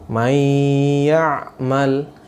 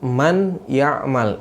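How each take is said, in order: First: The n merges into the y with nasal hold. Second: The n is pronounced clearly before the y. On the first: The speaker calls it right. "Di sini bacanya may ya'mal ya" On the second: The speaker calls it wrong. "Bukan dibaca man ya'mal"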